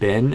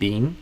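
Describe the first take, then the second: First: The vowel is short, as in 'bin'. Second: The vowel is long, as in 'bean'.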